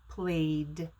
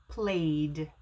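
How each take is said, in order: Both takes have the same delivery.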